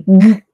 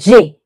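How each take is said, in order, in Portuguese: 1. A letra é dita como um som curto de consoante, sem nome. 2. A letra é dita pelo nome completo do alfabeto. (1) "ela tem um som, que é G" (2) "ela tem um nome, que é G"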